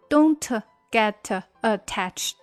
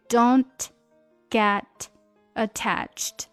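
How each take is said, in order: First: The t in don't is strongly released. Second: The t in don't is very light. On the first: The speaker calls it wrong. "不可以读成don't get attached，那就很难听了" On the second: The speaker calls it right. "因为don't 这个t 非常轻"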